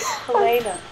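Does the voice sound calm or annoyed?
calm. It sounds calm and patient.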